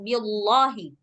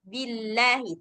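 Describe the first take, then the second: First: The 'lah' is heavy and full. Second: The 'lah' is light and thin. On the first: The speaker calls it wrong. "bukan billahi" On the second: The speaker calls it right. "billahi tipis"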